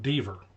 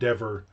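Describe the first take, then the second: First: The vowel sounds like the one in beaver. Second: The vowel sounds like the one in never. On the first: The speaker calls it wrong. "I always just thought Deaver rhymes with beaver" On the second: The speaker calls it right. "apparently it rhymes with never"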